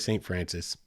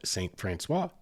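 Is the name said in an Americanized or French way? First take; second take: Americanized; French. First: The name is said in an Americanized way. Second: The name is said in a French way. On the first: This is how locals casually say it. "People up there will say Saint Francis. It's a colloquial thing" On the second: This is the original proper form. "It's French. That's the proper pronunciation"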